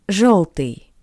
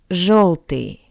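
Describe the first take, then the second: No difference in how they are said.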